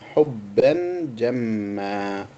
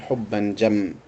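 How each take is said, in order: First: The last word ends in a long 'a' vowel. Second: The last word ends in a bare consonant. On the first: The speaker calls it right. "they will stop by adding an alif" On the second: The speaker calls it wrong. "They will not say"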